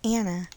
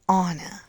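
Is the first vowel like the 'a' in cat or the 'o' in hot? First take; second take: cat vowel; hot vowel. First: The first vowel sounds like the 'a' in cat. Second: The first vowel sounds like the 'o' in hot. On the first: The speaker calls it wrong. "Her name is not Anna" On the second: The speaker calls it right. "It's pronounced Anna. ... it should have an O"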